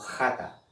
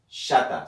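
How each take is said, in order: First: The word begins with a throaty h sound. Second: The word begins with a sh sound. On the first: The speaker calls it right. "sino como jata" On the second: The speaker calls it wrong. "los judíos no pronuncian esta palabra, ¿verdad?, como shata"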